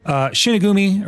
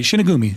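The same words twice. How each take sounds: First: Shinigumi said slowly, pitched up, syllable by syllable; careful name try. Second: Shinigumi said smoothly at normal pitch; confident name. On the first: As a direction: sound out Shinigumi carefully and high. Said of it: "let me try and say his name". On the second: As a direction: Shinigumi said quickly and sure of it. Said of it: "I think I said it right". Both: Shown as a demonstration.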